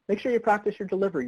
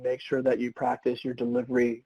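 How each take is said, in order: First: It is said with lively energy and variation. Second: It is said flatly, with little energy.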